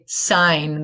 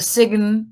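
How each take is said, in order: First: No G sound is pronounced in the word. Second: A G sound is pronounced in the word. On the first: The speaker calls it right. "It's a sign. The G is silent" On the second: The speaker calls it wrong. "It's not a sign"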